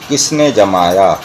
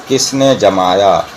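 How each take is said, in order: The two takes are said the same way.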